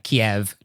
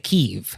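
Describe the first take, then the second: First: The name is said the Russian way. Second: The name is said the Ukrainian way. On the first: It signals the Russian usage to a Ukrainian listener. "I'm going to say the Russian pronunciation" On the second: It shows a deliberate choice to side with Ukrainian usage. "if you wanted to do the Ukrainian pronunciation"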